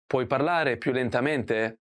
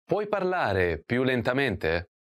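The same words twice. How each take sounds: First: Said in the usual way. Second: Slow, careful model of the phrase. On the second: Shown as a demonstration. Teacher models the question for learners, slowly. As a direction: spell each word out slowly for the learner. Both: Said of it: "Can you speak more slowly".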